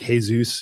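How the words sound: The name is pronounced the Spanish way. "on the Spanish side"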